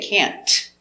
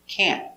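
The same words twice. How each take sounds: First: The final T is released with a hard burst. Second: The final T is stopped without a burst. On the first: The speaker calls it wrong. "We don't pronounce the T hard" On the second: The speaker calls it right. "Make a stop T"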